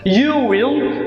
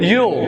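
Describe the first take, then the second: First: Both words are said fully and separately. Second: The words merge into one short syllable. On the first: "laba jeer bay ahayd" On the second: "hal mar baa lagu dhawaaqaya"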